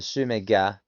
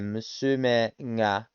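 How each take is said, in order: First: The g is a plain hard stop. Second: The g is soft and nasal, like ng. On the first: The speaker calls it wrong. "rather than Musumega" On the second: The speaker calls it right. "saying Musumenga, nga"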